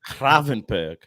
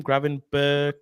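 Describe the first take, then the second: First: Gravenberch with a rough, throaty attempt at Dutch G; attempted Dutch pronunciation. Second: Gravenberch with a hard English G and plain -berk ending; tentative pronunciation. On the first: Host repeating after the guest, Gravenberch with attempted guttural G. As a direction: copy the Dutch "Gravenberch", guttural first sound, almost right. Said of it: "Is that better?". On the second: Host asking the panel how to say it, tentative Gravenberch with hard G. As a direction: try "Gravenberch" the English way, as a question. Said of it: "how do you sp-, pronounce his name?".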